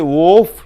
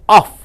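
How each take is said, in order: First: The vowel is a full, clear vowel. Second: The vowel is a short, reduced uh sound. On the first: The speaker calls it wrong. "You don't say off" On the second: The speaker calls it right. "you say off. ... This O is pronounced as uh"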